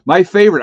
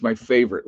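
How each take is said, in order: First: Loud, higher exclamation. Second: Said in the usual way. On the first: Acted. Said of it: "repeats it plainly after". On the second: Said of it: "repeats after aside".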